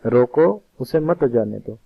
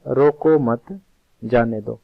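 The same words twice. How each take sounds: First: Intended meaning, pause right after रोको and stress on मत. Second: Slow "रोको मत" run together, then a pause, then a short "जाने दो"; pause after मत. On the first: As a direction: stop on रोको, then say उसे मत जाने दो as one firm order. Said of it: "तो मैं उस दूसरे व्यक्ति को कह रहा हूँ". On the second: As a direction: join रोको मत as one phrase, break, then drop into जाने दो. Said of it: "यानी उसको सुनाई दिया". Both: Shown as a demonstration.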